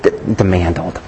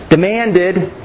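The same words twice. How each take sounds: First: "demanded" as "demandled", pitched low; stumble, then say "demanded" low with a stray l in the last syllable; botched word. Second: Said in the usual way. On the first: Shown as a demonstration. Preacher echoing his own slip, botched low "demanded". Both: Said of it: "I'm losing it today".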